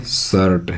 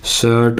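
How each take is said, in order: First: शर्ट with the r sounded; wrong pronunciation. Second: शर्ट with the r dropped, सट; right pronunciation. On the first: Teacher shows the class the wrong way, शर्ट with r. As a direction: says शर्ट the wrong way, r spoken. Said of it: "जो कि बिल्कुल गलत है". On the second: Teacher gives the class the right way, शर्ट without r. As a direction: says शर्ट as सट, no r. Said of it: "आर का उच्चारण तो काट दो". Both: Shown as a demonstration.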